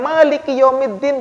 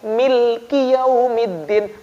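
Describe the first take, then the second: First: The first vowel is an a sound. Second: The first vowel is an i sound. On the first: "bukan maliki yaumiddin" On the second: "Mimnya dibaca i, baca kasroh"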